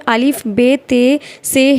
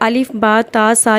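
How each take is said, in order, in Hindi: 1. अक्षरों के नाम 'e' स्वर पर खत्म होते हैं। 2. अक्षरों के नाम 'a' स्वर पर खत्म होते हैं। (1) "उर्दू में अलिफ बे ते से ही बोला जाता है" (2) "सही होता है अरबी में पढ़ना"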